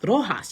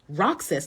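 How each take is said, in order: First: The name is said the local Philippine way. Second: The name is said the American way. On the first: "your pronunciation is wrong" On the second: "In the United States, it's pronounced Roxas"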